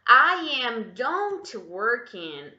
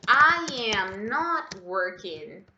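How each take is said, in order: First: Slow, louder example with "don't" left in; wrong sentence, slow and loud. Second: Slow, louder, "not" clearly in place of "don't"; corrected sentence, slow and loud. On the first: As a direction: read the error out clearly for correction. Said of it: "Tira esse don't daqui". (frase errada, devagar e alta, com "don't") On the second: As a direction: model the correct form deliberately. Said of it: "adiciona a partícula negativa". (frase corrigida, devagar e alta, com "not") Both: Shown as a demonstration.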